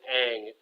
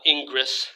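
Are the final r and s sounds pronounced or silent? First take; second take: silent; pronounced. First: The final r and s sounds are silent. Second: The final r and s sounds are pronounced. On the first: The speaker calls it right. "pronounced as if the R E S were not there" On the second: The speaker calls it wrong. "So not Ingris"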